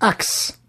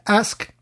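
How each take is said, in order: First: The word ends with a ks sound. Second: The word ends with an sk sound. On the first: This marks the singer as from Louisiana. "il dit axe" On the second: This is the usual form. "au lieu de dire ask"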